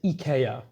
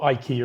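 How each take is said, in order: First: It is said with a Swedish pronunciation. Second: It is said with a British English pronunciation. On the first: "in Swedish you'd actually pronounce it" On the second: "as we pronounce it in the U K"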